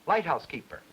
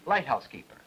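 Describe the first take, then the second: First: The strongest stress is on light. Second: The same.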